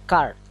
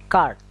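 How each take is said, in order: Both takes have the same delivery.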